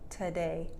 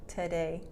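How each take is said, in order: First: The first syllable is reduced to a short 't'. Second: The first syllable is reduced to a short 't'.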